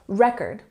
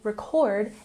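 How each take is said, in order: First: The stress is on the first syllable. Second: The stress is on the second syllable. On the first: It is a noun. "we have the emphasis on the first syllable in the word" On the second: It is a verb. "if we put the emphasis on the second syllable"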